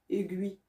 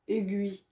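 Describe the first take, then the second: No difference in how they are said.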